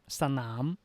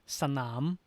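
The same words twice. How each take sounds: No difference in how they are said.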